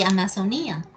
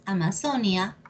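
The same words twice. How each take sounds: First: Amazonía said amazo-NÍ-a; Amazonía with NÍ leaned on; stress on Í. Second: Amazonia said ama-ZO-nia; stress on ZO. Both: Shown as a demonstration. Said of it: "¿Sabías?".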